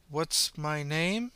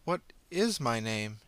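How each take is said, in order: First: Drawn-out, wondering repeat; slow, rising echo of the question; slow puzzled question. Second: Drawn-out, stressing is; slow, thoughtful repeat; slow musing. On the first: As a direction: stretch it out as if unsure. Puzzled girl repeats slowly. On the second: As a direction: ponder it aloud slowly. Girl ponders. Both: Acted.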